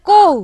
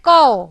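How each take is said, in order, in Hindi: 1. इस स्वर का उच्चारण सादे 'o' जैसा होता है। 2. इस स्वर का उच्चारण 'au' जैसा होता है। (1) "बांग्ला में बोलते हैं को" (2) "लेकिन इसका एकदम अलग है कौ"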